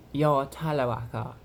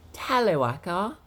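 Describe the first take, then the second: First: Lightly put-on Brighton British voice; a closer, less exaggerated mimicry; hint of a Brighton accent, only slightly raised; Tyler. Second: High, swooping put-on voice; exaggerated high mimicry, louder; off-target Tyler impression. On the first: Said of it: "He more, more, like, speaks like". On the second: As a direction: overdo it, pitched up and rising at the end. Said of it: "he doesn't speak like that". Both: Shown as a demonstration.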